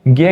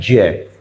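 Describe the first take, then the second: First: The syllable is said without the ja-plus-nya combination. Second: The syllable is said as ja joined with nya. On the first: The speaker calls it wrong. "इसको वास्तव में ज्ञ ज्ञानी हम बोल देते हैं" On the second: The speaker calls it right. "इसका सही उच्चारण होता है जय"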